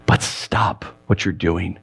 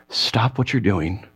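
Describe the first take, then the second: First: Soft plea. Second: Tender plea. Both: Acted. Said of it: "He's essentially saying".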